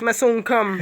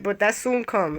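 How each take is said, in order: First: Rasta voice. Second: Said in the usual way. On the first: Shown as a demonstration. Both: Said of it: "In my, in my Rasta voice".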